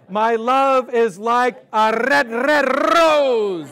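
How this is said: It is spoken in a Scottish accent.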